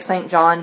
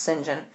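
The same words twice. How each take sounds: First: Saint John, said as spelt: SAYNT JON with a clear t; the wrong reading, Saint John said the way it looks. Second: St. John said as SIN-jun, two quick syllables; St. John, said SIN-jun with no Saint; Sinjin pronunciation. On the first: Teacher shows the spelling-based reading, Saint John sounded out. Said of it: "it looks like Saint John". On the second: Teacher gives the right reading, St. John as SIN-jun. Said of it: "but it's pronounced St. John". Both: Shown as a demonstration.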